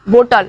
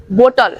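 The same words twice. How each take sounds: Both takes have the same delivery.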